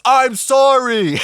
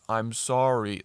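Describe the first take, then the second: First: It is yelled loudly. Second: It is said very quietly.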